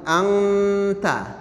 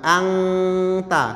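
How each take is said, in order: First: The nasal before the t is light and brief. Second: The nasal before the t is full and heavy. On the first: The speaker calls it right. "namun angta" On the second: The speaker calls it wrong. "bukan angta"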